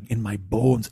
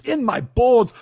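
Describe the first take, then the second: First: Said in the usual way. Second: High, loud mock wail; dramatic shout. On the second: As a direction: bellow it like a tortured soul. Builds to a mock outburst.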